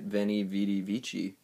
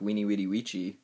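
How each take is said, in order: First: Each word begins with a V sound. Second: Each word begins with a W sound. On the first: The speaker calls it wrong. "everyone always pronounces it" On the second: The speaker calls it right. "V's is more like a W, so it actually sounds more like"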